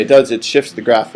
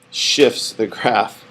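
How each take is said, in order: First: Said in the usual way. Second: Drawn-out, very slow "shifts the graph", each word separate; slow it right down so "shifts" is clear; said slowly. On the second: Shown as a demonstration. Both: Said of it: "I have to say it slow".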